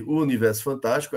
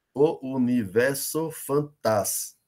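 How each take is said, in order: First: Said in the usual way. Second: Slow separate beats, stopping dead on the stressed TAS of "fantás"; poetic syllable count. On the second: Shown as a demonstration. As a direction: scan "universo fantás" syllable by syllable and cut it after TAS. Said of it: "conta até a última sílaba tônica". ("universo fantás" escandido devagar, parando na tônica TAS)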